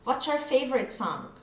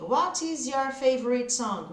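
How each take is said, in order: First: The words run together in one linked stretch. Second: Each word is said separately and fully. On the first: The speaker calls it right. "no inglês falado" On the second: The speaker calls it wrong. "falar tudo separado, esse inglês de escola"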